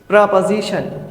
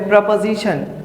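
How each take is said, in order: Both takes have the same delivery.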